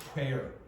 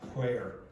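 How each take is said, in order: No difference in how they are said.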